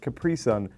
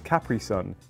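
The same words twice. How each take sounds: First: It is said with American-style stress placement. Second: It is said with British-style stress placement. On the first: The speaker calls it wrong. "you pronounce it Capri Sun. You're putting the emphasis on the completely wrong part of the word" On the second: The speaker calls it right. "We pronounce this Capri Sun"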